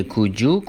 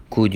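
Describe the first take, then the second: First: "could you" blended into "kood-joo"; "could you" with a j in the middle; linked sounds. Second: Said in the usual way. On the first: Shown as a demonstration.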